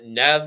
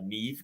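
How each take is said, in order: First: The name is said as Nev. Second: The name is said as Neev. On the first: The speaker calls it wrong. "we've been pron- pronouncing it wrong all these years" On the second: The speaker calls it right. "as I'm hearing now"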